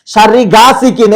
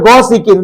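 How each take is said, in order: First: "গাসিকিন" with a long আ after গ, read slowly; wrong reading from the book. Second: "গসিকিন" with a short ও after গ; correct Arabic pronunciation. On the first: Teacher slowly reading the book's mistaken "গাসিকিন". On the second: Teacher giving the right Arabic "গসিকিন" with a short first vowel. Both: Shown as a demonstration. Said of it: "এখানে হবে গসিকিন".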